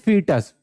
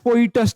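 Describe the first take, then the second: First: The first vowel sounds like 'ee'. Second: The first vowel sounds like 'oy'. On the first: The speaker calls it right. "But pronounce करते हैं फीटस" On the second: The speaker calls it wrong. "वैसे लिखा है फोइटस type का है नहीं बच्चा"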